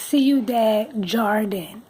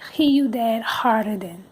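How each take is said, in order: First: Jardin begins with an English J sound. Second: Jardin begins with an H sound. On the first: This is how Americans say it. The speaker calls it wrong. "I'm gonna say it wrong, but how we would say it is" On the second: This is how locals say it. The speaker calls it right. "they say Ciudad Harden because the J is an H"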